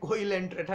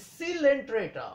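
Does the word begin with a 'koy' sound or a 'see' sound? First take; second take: koy; see. First: The word begins with a 'koy' sound. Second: The word begins with a 'see' sound. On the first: The speaker calls it wrong. "बहुत सारे students को कोइलेंट्रेटा कहते हैं" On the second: The speaker calls it right. "It is सीलेंट्रेटा"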